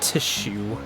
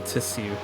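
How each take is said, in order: First: The middle consonant is a sh sound. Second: The middle consonant is an s sound. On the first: This is how others say it. "not tissue" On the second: This is how the speaker says it. "I say tissue"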